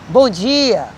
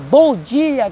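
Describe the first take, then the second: First: It is said automatically, without real feeling. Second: It is said warmly, with real sincere feeling.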